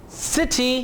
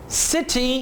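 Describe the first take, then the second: Both takes have the same delivery.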